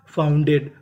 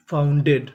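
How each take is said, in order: Both takes have the same delivery.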